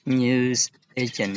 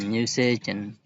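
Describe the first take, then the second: First: NEWS agent with stress on NEWS; teacher stressing the first word NEWS. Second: Said in the usual way. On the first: Shown as a demonstration. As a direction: hit NEWS harder than agent. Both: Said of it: "where the stress is on the compound noun".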